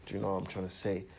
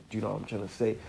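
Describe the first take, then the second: No difference in how they are said.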